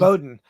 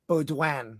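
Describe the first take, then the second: First: It is said the plain English way, like 'Bowden'. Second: It is said with a French-sounding twang. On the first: This is the correct name of the school. "I think it's Bowden" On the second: It sounds cooler. "I wanted like a little French twang to it"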